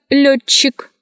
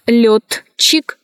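First: Лётчик as лёччик; merged soft CH. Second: Лётчик split as лёт-чик; spelling pronunciation. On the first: Teacher showing how лётчик is pronounced, merged double CH. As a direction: join ТЧ into one long soft Ч in лётчик. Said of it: "произносится". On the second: Teacher showing how лётчик is written, spelled-out reading. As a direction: sound Т and Ч apart in лётчик. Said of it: "Пишется". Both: Shown as a demonstration.

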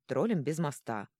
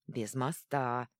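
First: Said in the usual way. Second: Slow, pleased «Без моста»; gleeful. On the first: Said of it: "Яго от него отмахнулся". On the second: A narrator's reading. Troll happily repeating «Без моста», slow and grinning. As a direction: savour «Без моста» slowly with a grin. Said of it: "радостно осклабился тот".

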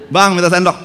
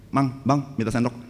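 First: Loud call to the stall owner, louder and higher; wife calling the vendor for a spoon, loudly. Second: Said in the usual way. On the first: Retold or imitated. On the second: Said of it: "Istri saya tuh".

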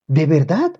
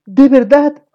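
First: Said in the usual way. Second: High, louder eager rise; excited question. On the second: A narrator's reading. Boy thrilled at mother's baby news, excited. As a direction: burst out in delight.

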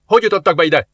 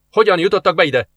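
First: Louder, higher challenge; guard's demand. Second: Louder, higher stern question; guard's repeated demand. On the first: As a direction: demand an answer. Guard asks twice. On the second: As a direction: insist again. Guard asks again. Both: Acted.

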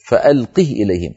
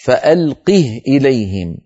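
First: Said in the usual way. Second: "فألقه" with a still h, recited slowly; "فألقه" with sukun on the ha; recited example. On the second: Shown as a demonstration. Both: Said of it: "كقوله تعالى".

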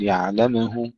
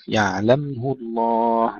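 First: يعلمه with an extra vowel after m; bounced mim. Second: يعلمه الله slowly, with closed vowelless m; still mim. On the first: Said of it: "لا نقلقل ولا نضم". (يعلمه بقلقلة الميم) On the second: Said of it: "ننتبه إلى سكون الميم". (يعلمه الله بميم ساكنة) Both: Shown as a demonstration.

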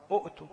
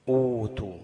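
First: "أؤتوا" as short u, glottal stop, tu; higher "أؤتوا" with a catch after the first u; original sounded hamza. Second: Loud, stretched oo in "أوتوا"; long waw flowing into tu in "أوتوا"; long u replacing hamza. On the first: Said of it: "أصلها". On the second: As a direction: hold the opening oo of "أوتوا", no catch. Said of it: "بقت إيه؟". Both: Shown as a demonstration.

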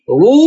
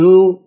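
First: "رو" with a dark, thick r; heavy ra. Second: "رو" with a thin, clear r, not darkened; light ra. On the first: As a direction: say "رو" darkening the ra fully. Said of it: "مفخمة". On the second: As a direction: say "رو" keeping the ra light. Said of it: "لكن رو مرققة". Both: Shown as a demonstration.

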